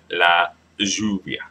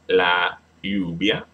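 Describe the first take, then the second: First: The double L sounds like an English J. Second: The double L sounds like an English Y.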